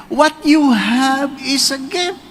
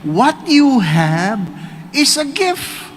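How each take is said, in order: First: Slow, rising emphasis on you; slow emphatic sermon line; slow preaching. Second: Very slow, stretched words; slow, weighty preacher's line; slow preaching. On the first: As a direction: lean on you, slowly. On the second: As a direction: let each word land slowly. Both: Shown as a demonstration.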